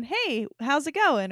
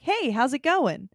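First: Slow, bright, friendly hello to a stranger; cheerful greeting. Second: Friendly greeting. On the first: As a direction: greet a passerby in the aisle kindly. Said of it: "I could see myself just going". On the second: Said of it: "people were like". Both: Retold or imitated.

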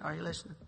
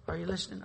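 First: Softer echo of the question; quieter repeat. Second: Said in the usual way. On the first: Real, not acted. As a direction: drop the voice and ask again.

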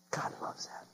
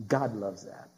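First: Barely audible whisper; hushed, voiceless repeat. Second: Low, soft and reverent; softly lowered after the climax; hushed. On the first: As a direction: whisper it to the congregation. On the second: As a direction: drop the voice low and quiet. Hushed repeat after loud climax. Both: Real, not acted.

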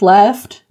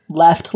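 First: "left" louder with a rising tune; "left" stressed and rising. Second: Said in the usual way. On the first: Shown as a demonstration. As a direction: lean on "left" as in truly gone. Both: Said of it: "Like, left, left, you know?".

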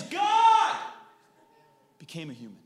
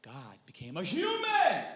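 First: God shouted high, long and loud, the rest dropping away; stress on God. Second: Human shouted high, long and loud at the end; stress on human. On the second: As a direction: start level, then belt out human. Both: Shown as a demonstration. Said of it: "I'm emphasizing something different".

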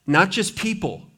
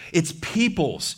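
First: Said in the usual way. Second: Slow, with peoples drawn out and plural s marked; stress on peoples. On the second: Shown as a demonstration. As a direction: lean on the final s of peoples.

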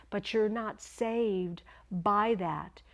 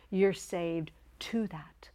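First: "by" set apart after a slow "not saved"; slow, deliberate weight on "by that"; stress on BY. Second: "to" set apart after a slow "saved"; slow, deliberate weight on "to that"; stress on TO. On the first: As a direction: slowly deny it, leaning on "by". Contrasts by with to. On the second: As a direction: slowly correct it, leaning on "to". Contrasts to with by. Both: Shown as a demonstration.

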